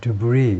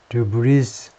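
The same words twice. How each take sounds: First: The final s sound is silent. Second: The final s sound is pronounced. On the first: The speaker calls it right. "이건 발음하지 않고 debris 이렇게 하죠" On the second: The speaker calls it wrong. "debris 하지 않고"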